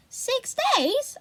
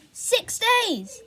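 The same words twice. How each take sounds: First: Very high rising disbelief; shocked question. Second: High but falling, musing; puzzled repeat. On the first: Boy hearing his sister waited six days, high shocked rising question. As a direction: gasp it out amazed. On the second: Boy repeating his sister's words, puzzled falling tone. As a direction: turn it over thoughtfully. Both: A narrator's reading.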